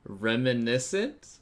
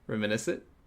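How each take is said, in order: First: The word is said slowly and carefully. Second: The word is said quickly, rushed.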